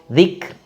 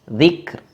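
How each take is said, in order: The two takes are said the same way.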